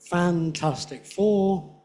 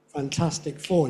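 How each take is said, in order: First: The main stress in fantastic falls on fan. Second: The main stress in fantastic falls on tas. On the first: "putting a stress on fan" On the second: "most people say Fantastic Four"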